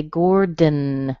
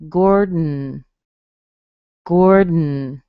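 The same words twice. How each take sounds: First: "Gordon" with a clear schwa between D and N; tongue lifted. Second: "Gordon" with the tongue held, D straight into N; nasal release demo. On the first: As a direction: lift the tongue and sound the vowel in "Gordon". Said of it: "If I did, I would say". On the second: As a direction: say "Gordon" with no vowel between D and N. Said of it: "this is how it would sound". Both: Shown as a demonstration.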